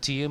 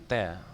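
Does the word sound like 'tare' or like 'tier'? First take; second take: tier; tare. First: The vowel sounds like the one in 'ear'. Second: The vowel sounds like the one in 'air'. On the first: It means the drops of water from crying. The speaker calls it wrong. "bukan tear bacanya" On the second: It means to rip or pull down. The speaker calls it right. "tapi tear"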